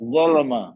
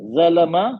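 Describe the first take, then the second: First: The first consonant is heavy and full. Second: The first consonant is light and thin. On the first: The speaker calls it right. "दूसरा सही है" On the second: The speaker calls it wrong. "पहले मैं हल्का जा पड़े"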